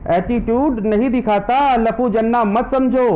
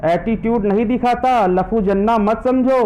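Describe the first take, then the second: No difference in how they are said.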